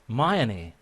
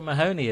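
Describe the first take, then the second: First: The h sound in the middle is silent. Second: The h sound in the middle is pronounced. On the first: The speaker calls it right. "You pronounce it Mayoni. The H just disappears" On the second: The speaker calls it wrong. "you don't pronounce it Mahoney in Ireland"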